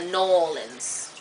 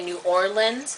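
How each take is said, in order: First: It is said the way a local says it. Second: It is said the way an outsider says it. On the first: "they go New Orleans" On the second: "when you say New Orleans"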